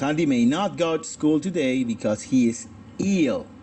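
It has an American accent with an American 'a' vowel. "pronuncio mi A como los americanos"

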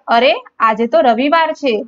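It is said as a surprised exclamation.

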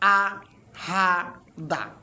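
Each syllable is said separately with pauses. "আমরা এখন একটা করে উচ্চারণ দিই"

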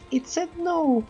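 It is said in a put-on woman's voice.

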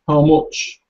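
It is said with a Scottish-style vowel in much. "I think probably in Scotland, the Scottish, they might pronounce it like that"

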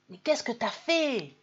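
It is asked in a shocked, reproachful tone. The speaker blames the person for a mistake. "c'est pas le même ton et c'est pas la même intention. Hein. C'est un reproche"

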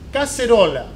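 The c is pronounced like an s. This is how it is said in South America. "en Sudamérica, pronunciamos"

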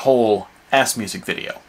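The words ass and music are grouped together. It is a whole video of 'ass music'. The speaker calls it wrong. "not a whole ass music video with the dash between the ass and music. That would be wrong also"

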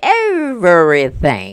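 It is said in a put-on comedian's voice.

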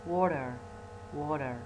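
It is said in an American accent. "in American"

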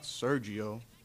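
The name is said with an English pronunciation. This is the name as outsiders say it. The speaker calls it wrong. "The music of my name sounds horrible in this foreign tone"

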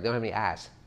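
The r sound in R's is dropped.

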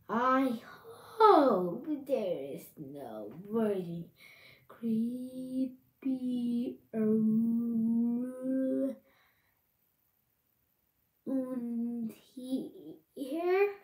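It is said in a spooky voice.

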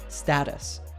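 The word is said with an American pronunciation. "In American English, this word is usually pronounced status"

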